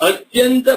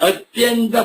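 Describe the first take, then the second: No difference in how they are said.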